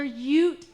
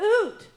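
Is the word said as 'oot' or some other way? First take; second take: other way; oot. First: The word is not said as 'oot'. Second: The word is said as 'oot'. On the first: The speaker calls it right. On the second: The speaker calls it wrong.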